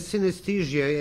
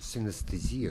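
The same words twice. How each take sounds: First: The word is pronounced in the English way. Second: The word is pronounced in the Russian way. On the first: "as you say" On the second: "we have a completely another pronunciation in Russian"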